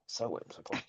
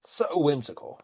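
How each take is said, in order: First: Breathy sarcastic whisper of So whimsical. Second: Said in the usual way. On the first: Shown as a demonstration. Repeats phrase, second whispered.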